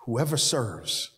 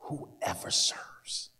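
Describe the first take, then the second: First: Said in the usual way. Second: Whispered, slow; whispered emphasis. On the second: Shown as a demonstration. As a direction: breathe the words out. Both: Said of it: "You hear it?".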